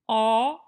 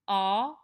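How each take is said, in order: First: The vowel sounds taller, warmer and more spacious. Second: The vowel has its plain, ordinary quality. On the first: "I'm going to change the quality, but not the integrity" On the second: "Here's the regular vowel"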